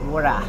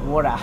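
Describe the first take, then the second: First: It is said in an Australian accent. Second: The same.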